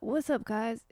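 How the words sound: It is a white kid imitating a hip-hop voice.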